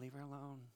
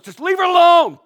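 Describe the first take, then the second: First: It is said softly and meekly. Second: It is said loudly and forcefully.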